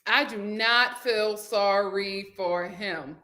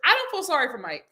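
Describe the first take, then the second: First: Lower, slow and deliberate; slow emphasis. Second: Said in the usual way. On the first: Real, not acted. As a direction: spell it out word by word. Restates it slowly for emphasis.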